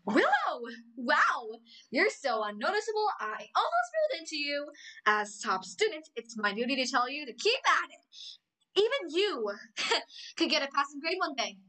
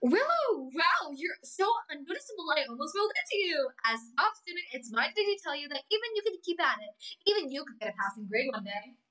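First: Amity Blight impression. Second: Higher, haughty mean-girl cartoon voice; Amity Blight impression. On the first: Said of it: "But let me try again". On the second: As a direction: sneer it like the snobby top student. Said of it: "Season one Amity".

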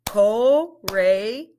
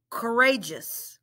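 First: "Courageous" broken into slow parts; syllable by syllable; split into syllables. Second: "Courageous" said smoothly as one word; blended "Courageous". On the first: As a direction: segment "Courageous". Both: Shown as a demonstration. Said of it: "Let's blend it".

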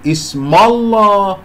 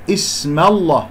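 First: اسم الله higher, the meem darkened like the lam; wrong heavy meem. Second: اسم الله with a thin meem before the heavy lam; correct light meem. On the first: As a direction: exaggerate a thick M in اسم الله. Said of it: "لا أفخم الميم لأنها جاورت". (نطق خاطئ لـ«اسم الله» بتفخيم الميم) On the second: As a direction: keep M light in اسم الله, then thicken the L. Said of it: "لا أفخم الميم". («اسم الله» بميم مرققة ولام مفخمة) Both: Shown as a demonstration.

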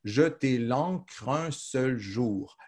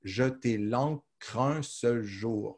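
First: Very slow, "jeter" given the weight; slow verse recital. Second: Very slow and softer, "un" singled out; slow, softer repeat. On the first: Teacher reciting the end of the verse, very slow. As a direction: lean on "jeter" and let the line settle. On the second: Teacher repeating the line more softly so the count shows. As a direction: echo the line quietly, weight on "un". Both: Shown as a demonstration. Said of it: "Vous voyez comment?".

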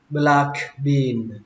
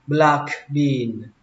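The two takes are said the same way.

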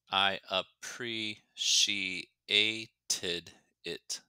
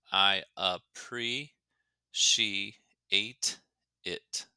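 First: Teacher breaking "I appreciated it" into pieces; syllable by syllable. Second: "I appreciate it" very slow, gaps between syllables; teacher breaking "I appreciate it" into pieces. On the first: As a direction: count out "I appreciated it" one syllable at a time. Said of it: "Six syllables". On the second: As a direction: count out "I appreciate it" one syllable at a time. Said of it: "Again, five syllables". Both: Shown as a demonstration.

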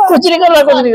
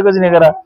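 First: Raised, playful protest; mock pleading. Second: Said in the usual way. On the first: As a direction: plead innocence up high, half-joking. Parent pleading with hitting kids. (ऊँची आवाज़ में मज़ाकिया सफ़ाई)

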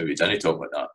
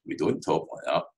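First: DIDN'T said as Scots "dinnae", short first vowel; Scots wording. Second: DON'T said as one syllable, "dohnt"; standard English wording. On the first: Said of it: "it's a wee bit rotten, that accent". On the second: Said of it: "That's how we didn't talk like that". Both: Shown as a demonstration.

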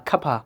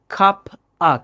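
First: 'কাপা' run together as cuppa; blended words. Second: 'cup আ' as two separate pieces; unblended words. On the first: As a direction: link cup and a into 'কাপা'. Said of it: "অফটা হয়ে যাবে আ". ('কাপা' একশব্দে মিলিয়ে বলা) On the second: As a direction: keep 'cup' apart from 'আ'. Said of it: "cup আর of মিলে". ('cup আ' আলাদা করে বলা) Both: Shown as a demonstration.

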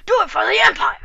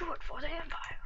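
First: Louder, rallying Star Wars battle cry; rally the troops for the Empire; loud quoted Empire battle cry; Star Wars quote. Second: Whispered Star Wars line; soft whispered quote. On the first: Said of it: "Star Wars". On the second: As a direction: breathe it conspiratorially for the Empire. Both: Retold or imitated.

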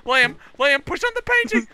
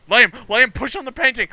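First: Higher, frantic shout; high urgent shout. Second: Raised, urgent call; urgent shout. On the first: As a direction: shriek it now, desperate. Repeated, more urgent. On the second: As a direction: call him over, fast. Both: Real, not acted.

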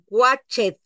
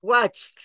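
First: "watched" in two syllables, watch-ed, with the E sounded; wrong pronounced E. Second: "watched" in one syllable, CH running straight into T; final T sound. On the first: Teacher showing what she will not say, sounded E. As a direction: read "watched" as spelt, adding an ED syllable. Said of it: "yo no voy a decir watched". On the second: Teacher showing tongue a little between the teeth, final T. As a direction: end "watched" on a crisp T, no E. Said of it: "La T la voy a meter". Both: Shown as a demonstration.

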